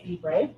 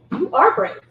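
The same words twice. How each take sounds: First: Quiet, unsure "Be brave", rising at the end; soft hesitant quote. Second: "are" leaned on firmly in "You are brave"; stress on ARE. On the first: Retold or imitated. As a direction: say "Be brave" softly, like a timid hint. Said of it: "We don't need to say". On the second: Real, not acted. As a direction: insist with the weight on "are".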